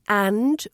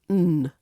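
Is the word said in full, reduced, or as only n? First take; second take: full; only n. First: The word is said with full vowel and d. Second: The word is only an n sound. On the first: "Another one is and" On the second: "which becomes earn or n"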